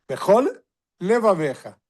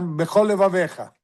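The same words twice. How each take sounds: First: Both L sounds are pronounced separately. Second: The two L sounds merge into one. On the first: The speaker calls it right. "Tem que ter dois L. Um de Bechol e outro de Levaveja" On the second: The speaker calls it wrong. "muitas vezes se fala Bechol Levaveja. Bechol Levaveja tem só um Lamed"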